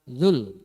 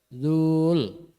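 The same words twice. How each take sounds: First: The vowel in the syllable is short. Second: The vowel in the syllable is long. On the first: The speaker calls it right. "langsung dibaca zul ... itu dibaca pendek" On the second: The speaker calls it wrong. "tidak zul"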